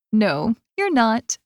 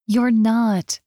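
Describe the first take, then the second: First: Slow teasing, stress on "you're"; slow, smiling "No, you're not" leaning on "you're"; with a grin. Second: Said in the usual way. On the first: A narrator's reading. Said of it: "Becky says with a grin".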